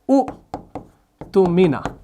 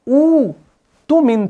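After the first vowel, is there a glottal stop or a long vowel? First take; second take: glottal stop; long vowel. First: A glottal stop follows the first short vowel. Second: The first vowel is long, with no glottal stop. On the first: This is the original underlying form. "ये असल में था" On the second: This is the form as it is written now. "यहां पर आप कहीं पर भी दूसरा साकिन हमजा नहीं पाते"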